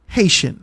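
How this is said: Haitian is said in the speaker's everyday accent. "like how we would say it"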